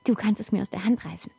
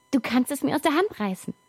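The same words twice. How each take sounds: First: Said in the usual way. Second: Higher, pushier repeat; urging. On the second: Acted. Child urging father to grab from hand. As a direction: urge him on, a bit higher.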